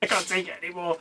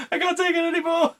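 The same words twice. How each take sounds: First: Said in the usual way. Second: Much higher, faster whiny "can't take it anymore"; mock wail. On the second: Traumatised crew mate cracking, high fast whine. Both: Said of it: "repeated take".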